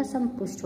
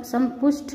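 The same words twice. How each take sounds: First: Said in the usual way. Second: संपुष्ट with aspirated th ending; mispronounced. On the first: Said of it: "होता है". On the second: Shown as a demonstration. Teacher showing students an error, संपुष्ट mispronounced. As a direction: say संपुष्ट as "sampushth". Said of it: "नहीं होता".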